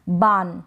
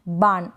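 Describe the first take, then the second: No difference in how they are said.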